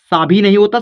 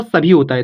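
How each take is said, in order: First: सा भी with long aa in सा; wrong long vowel. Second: सभी with a short first a; quick uh vowel opening सभी, then bhee; correct short vowel. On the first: Teacher rejecting a misreading to learners, सा भी with long aa. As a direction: draw सा out before भी. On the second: Teacher correcting the reading for learners, सभी with short a. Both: Shown as a demonstration.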